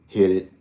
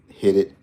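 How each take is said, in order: Both takes have the same delivery.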